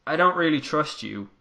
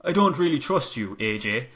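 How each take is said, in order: First: Said in the usual way. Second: Irish accent. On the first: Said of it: "I don't know why I did that". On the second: Shown as a demonstration. Finn telling AJ he doesn't trust him, light Irish accent. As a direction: slip into a light Irish lilt. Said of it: "I can do his accent".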